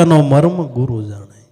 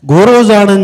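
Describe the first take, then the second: First: Said in the usual way. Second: Much higher and louder proclamation; emphatic. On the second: Acted. Preacher driving the point home to listeners, loud. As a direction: hammer home that the guru knows. Repeated with force.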